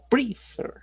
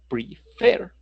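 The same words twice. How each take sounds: First: The stress is on the first syllable. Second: The stress is on the second syllable. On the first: The speaker calls it wrong. "No se llama prefer" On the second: The speaker calls it right. "sino prefer, razón por la cual esa última R sí se duplica"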